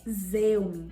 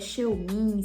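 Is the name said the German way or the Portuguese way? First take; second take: German; Portuguese. First: The name is said in a German way. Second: The name is read in a Portuguese way. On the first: The speaker calls it right. "por ser da MERS, que é uma marca alemã, a pronúncia correta é Zeumin" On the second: The speaker calls it wrong. "muita gente tem dúvidas se é Xeomin"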